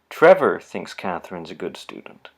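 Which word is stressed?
Trevor. The word Trevor carries the strongest stress. This person holds the view, but others might not. "I'm going to read the sentence with the first word stressed"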